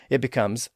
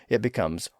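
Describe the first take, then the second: The two takes are said the same way.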